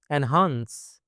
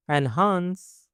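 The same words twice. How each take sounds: First: Said in the usual way. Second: Slow teaching repeat of enhance; drawn-out repeat. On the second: Shown as a demonstration. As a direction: stretch out enhance with raised pitch. Word model, then drawn-out repeat.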